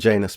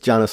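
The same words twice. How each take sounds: First: The name rhymes with 'anus'. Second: The name does not rhyme with 'anus'. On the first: The speaker calls it wrong. "not Janus, because she doesn't want to sound like anus" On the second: The speaker calls it right. "that it's Janus"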